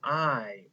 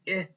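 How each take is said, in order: First: It is said as the letter's name. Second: It is said as the short vowel sound. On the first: "this letter's name is I" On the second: "we make the sound I. That is the short vowel sound for I"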